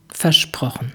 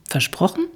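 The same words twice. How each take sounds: First: "Versprochen." lower and soft, falling to a close; firm falling tune. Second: "Versprochen?" softer, rising at the end, asking; questioning tune. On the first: Dirk promises Jule, "Versprochen." lower with a firm fall. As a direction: settle it with a low, falling "Versprochen.". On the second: Jule asks Dirk to promise, "Versprochen?" rising and softer. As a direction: Jule pins him down with a hopeful rising "Versprochen?". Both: A narrator's reading.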